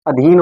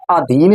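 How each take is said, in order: First: अधीन with a short first a; correct pronunciation. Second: अधीन with a long first aa; incorrect pronunciation. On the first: Teacher correcting the mistaken word for students, correct pronunciation. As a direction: say अधीन as a-dheen. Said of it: "अधीन होता है". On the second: Teacher showing students the mistaken word, incorrect pronunciation. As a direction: say अधीन as aa-dheen. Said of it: "अधीन नहीं होता". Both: Shown as a demonstration.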